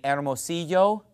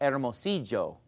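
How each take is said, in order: First: The double L is said as a Y sound. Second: The double L is said as a J sound. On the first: "instead of saying" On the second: "sometimes they'll call it"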